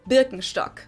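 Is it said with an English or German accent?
German. It is said with a German accent.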